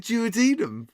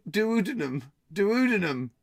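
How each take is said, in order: First: "duodenum" said as jew-uh-DEE-num; habitual pronunciation. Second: "duodenum" as doo-OO-duh-num, stress early; shifted stress. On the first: Quiz host defending the usual way, "duodenum" as jew-uh-DEE-num. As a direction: stress DEE in "duodenum", opening with a j sound. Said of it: "I've always said duodenum". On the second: Quiz host testing another stress, "duodenum" as doo-OO-duh-num. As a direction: hit the second syllable of "Duodenum", rush the rest. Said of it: "It's about stressing". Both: Shown as a demonstration.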